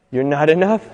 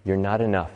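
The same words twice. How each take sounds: First: Said in the usual way. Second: Soft, low voice of self-doubt; little inner whisper. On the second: Acted. Little voice in your mind says it, hushed. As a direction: say it low and softly, like a nagging thought. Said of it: "this little whisper comes up and it says".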